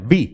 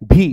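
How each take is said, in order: First: The letter starts with a soft 'v' sound. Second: The letter starts with a hard 'bh' sound. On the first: The speaker calls it right. "व से sound होगा" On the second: The speaker calls it wrong. "भी नहीं बोलेंगे आप"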